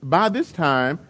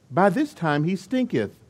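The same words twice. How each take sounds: First: Said in the usual way. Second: Put-on a touch of solemn old Bible English; King James voice. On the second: Martha warning Jesus about the tomb, mock King James voice. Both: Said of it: "she used her King James voice".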